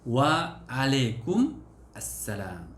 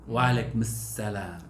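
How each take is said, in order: First: The reply is said in full, with 'assalam'. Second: The reply is said quickly, with 'salam' shortened.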